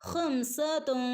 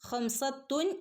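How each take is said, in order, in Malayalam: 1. നടുവിലെ അക്ഷരം മൃദുവായ 'th' ശബ്ദമാണ്. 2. നടുവിലെ അക്ഷരം സാധാരണ 't' ശബ്ദമാണ്. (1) "നാവ് മുകളിൽ തട്ടാതെ ചുണ്ടിൻ്റെയും പല്ലിൻ്റെ ഇടയിൽ ഒരു ക്യാപ്പ് വേണം" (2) "ഖംസത്തുൻ എന്ന് നമ്മൾ ഓതില്ല"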